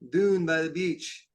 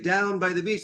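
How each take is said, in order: First: The word down is said like Scottish doon. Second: The word down is said in an American accent. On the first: The speaker calls it right. "They say dune" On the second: The speaker calls it wrong. "I'd say down by the beach"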